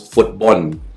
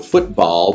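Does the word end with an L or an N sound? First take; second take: N; L. First: The word ends with an N sound. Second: The word ends with an L sound.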